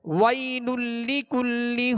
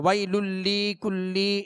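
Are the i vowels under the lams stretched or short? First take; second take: short; stretched. First: The i vowels under the lams are kept short. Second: The i vowels under the lams are stretched long. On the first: The speaker calls it right. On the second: The speaker calls it wrong.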